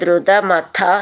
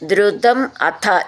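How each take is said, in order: First: The two words run together as one word. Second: The two words are said as separate words.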